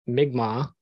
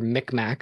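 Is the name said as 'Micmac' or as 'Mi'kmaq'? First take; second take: Mi'kmaq; Micmac. First: The name is said in its native form. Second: The name is said in its anglicized form. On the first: The speaker calls it right. "He is Mi'kmaq" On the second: The speaker calls it wrong. "as some people mispronounce it"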